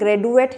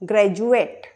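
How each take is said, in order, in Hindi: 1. बीच का व्यंजन सामान्य 'd' ध्वनि है। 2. बीच का व्यंजन 'j' ध्वनि है। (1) "इसे हम ग्रेजुएट नहीं पढ़ेंगे, ग्रेजुएट गलत हो जाएगा।" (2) "डी का उच्चारण होगा जा।"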